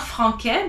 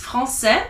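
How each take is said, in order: First: Franquais with a K in the middle; hard K sound. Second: Français with an S in the middle; soft S sound. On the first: French teacher showing the cedilla mistake, hard K. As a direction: say franquais as "fran-kay". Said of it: "not sounding it like a K". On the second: French teacher explaining the cedilla cue, soft S. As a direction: say français as "fran-say". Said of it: "reading it like an S". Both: Shown as a demonstration.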